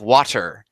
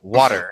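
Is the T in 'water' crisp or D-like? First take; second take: crisp; D-like. First: The T is sounded crisply and carefully. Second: The T sounds soft, like a D. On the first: The speaker is deliberately suppressing the dialect. "I'll overpronounce all the T's" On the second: This is the speaker's natural Midwestern way. "all T's turn into D's"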